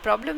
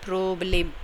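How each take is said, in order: First: The word is said with an English pronunciation. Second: The word is said with a German pronunciation. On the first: "Problem is in English" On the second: "the German generally pronounce it a Problem"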